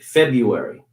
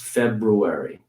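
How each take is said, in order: First: It is said differently from the spelling. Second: It is said the way it is spelled. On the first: "some people will say, will pronounce it February" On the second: "February is how it's spelled and generally how it's pronounced"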